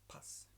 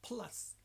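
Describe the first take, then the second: First: The L sound is left out. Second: The L sound is clearly pronounced. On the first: The speaker calls it wrong. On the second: The speaker calls it right. "push the tongue against the top teeth"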